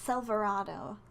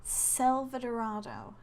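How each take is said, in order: First: A middle syllable is dropped. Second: All the middle syllables are said. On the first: The speaker calls it wrong. "I keep saying Selvarado" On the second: The speaker calls it right. "I'm pretty sure it's Selvadorado"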